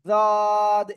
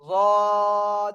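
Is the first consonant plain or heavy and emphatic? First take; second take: plain; emphatic. First: The first consonant is a plain light sound. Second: The first consonant is a heavy emphatic sound. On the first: The speaker calls it wrong. "যদ এরকম বললে হবে না।" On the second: The speaker calls it right. "তাহলে বলবো কেমন? এই যে যদ"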